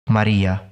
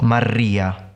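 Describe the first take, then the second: First: The r is trilled lightly. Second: The r is rolled strongly. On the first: The speaker calls it right. "it should be lightly trilled" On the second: The speaker calls it wrong. "not Maria"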